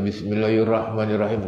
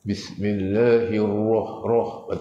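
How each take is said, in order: First: The r sound is light and thin. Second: The r sound is heavy and thick. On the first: The speaker calls it wrong. "Tak boleh baca" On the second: The speaker calls it right. "Ra dibaca dengan tafhil, tafhim tebal"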